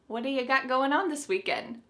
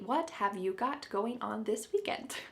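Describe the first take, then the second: First: The first three words blur into one. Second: Every word is pronounced fully and separately. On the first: "Do you think we can reduce this further? Oh yes" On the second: "we don't say it that clearly"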